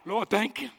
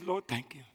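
First: It is said louder and with more energy. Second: It is said very quietly, barely audible.

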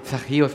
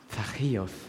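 First: The name is said in an offhand, everyday tone. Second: The name is said slowly, warmly and tenderly. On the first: The speaker is giving a routine chore command. "nicht so ein Zachäus, bring doch mal den Müll heraus" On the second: The speaker sees the whole person deeply. "Es lag mehr in der Art, wie er seinen Namen sprach"

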